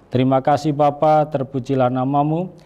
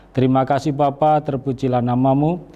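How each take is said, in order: No difference in how they are said.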